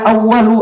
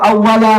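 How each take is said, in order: First: The word ends with a 'u' vowel. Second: The word ends with an 'a' vowel. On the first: "Tsumma kana awwalu" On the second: "boleh dibaca awwala"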